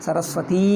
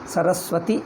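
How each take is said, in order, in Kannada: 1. ಕೊನೆಯ ಸ್ವರ ದೀರ್ಘವಾಗಿದೆ. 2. ಕೊನೆಯ ಸ್ವರ ಶಾರ್ಟ್ ಆಗಿದೆ. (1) "ದೀರ್ಘ ಲಾಂಗ್ ಆಗ್ತದೆ" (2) "ಇದಿಲ್ಲದಿದ್ದರೆ ಸರಸ್ವತಿ ಇಷ್ಟೇ"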